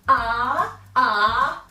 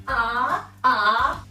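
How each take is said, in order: Both takes have the same delivery.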